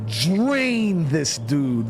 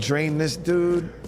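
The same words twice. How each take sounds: First: The word drain is strongly emphasized. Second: The word drain is said plainly without emphasis. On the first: The word is treated as something special. The speaker calls it wrong. "It's not like, shit, I'm about to go drain this dude" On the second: The word is ordinary everyday terminology. The speaker calls it right. "I just said, like, yeah"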